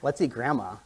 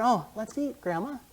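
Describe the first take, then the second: First: There is no pause before Grandma. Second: There is a pause before Grandma.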